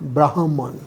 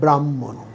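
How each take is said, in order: First: The h sound comes before the m. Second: The m sound comes before the h. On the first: This follows the written spelling. "লিখি হয় ময়" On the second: This is how it is actually spoken. "বলি ময় হয়"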